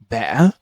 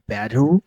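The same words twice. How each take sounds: First: The middle t is a glottal stop. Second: The middle t sounds like a soft d. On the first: "Cockney accent, where the glottalization happens" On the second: "like they replace with the d sound"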